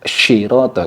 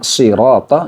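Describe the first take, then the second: First: The first consonant is a spread sh sound. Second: The first consonant is a hissing s sound. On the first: The speaker calls it wrong. "jadi terlalu tebal seperti itu" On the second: The speaker calls it right. "menggunakan huruf sod yang memiliki sofir mirip dengan desis angsa"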